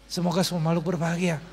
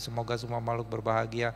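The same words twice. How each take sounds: First: The phrase is said at a louder volume. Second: The phrase is said at a quieter volume.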